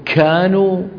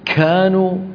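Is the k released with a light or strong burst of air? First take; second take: strong; strong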